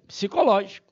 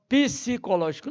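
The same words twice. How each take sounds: First: The p and s are joined: psi-cológico. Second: An extra vowel follows the p: pi-sicológico. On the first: The speaker calls it right. "É psi" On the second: The speaker calls it wrong. "não pode ser pronunciada pi. Então muita gente chama psicológico. Não, vai arranhar o ouvido"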